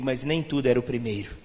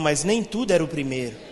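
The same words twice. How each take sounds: First: It is said in a mild, ordinary way. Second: It is said with strong, forceful conviction.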